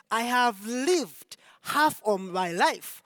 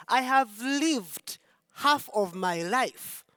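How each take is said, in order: Both takes have the same delivery.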